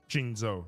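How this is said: It is said with an English-style pronunciation. "the traditional Western way"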